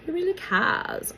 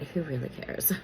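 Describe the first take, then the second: First: "Who really cares?" laughed out, much higher; laughing dismissal. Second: Said in the usual way. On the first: Real, not acted. Vlogger laughs off celebrity twin news to viewers, laughing. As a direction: giggle through a mocking repeat of "Who really cares?".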